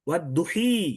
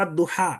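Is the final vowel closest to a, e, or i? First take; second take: i; a. First: The final vowel is a full i sound. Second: The final vowel is an open a sound.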